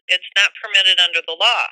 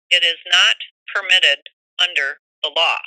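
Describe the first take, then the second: First: The phrase is said at a normal pace. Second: The phrase is said very slowly and deliberately.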